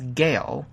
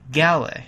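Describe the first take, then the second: First: The name is said like the word 'gale'. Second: The name is said unlike the word 'gale'. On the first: The speaker calls it wrong. "known not as" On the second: The speaker calls it right. "but as"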